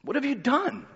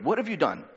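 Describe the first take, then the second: First: What have you done? pitched much higher and softer, a pressing Pilate; mock demand. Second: Said in the usual way. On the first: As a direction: ask What have you done? high and light, needling. Repeats Pilate's question, voiced high.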